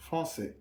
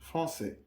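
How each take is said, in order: First: The middle consonant is an s sound. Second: The same.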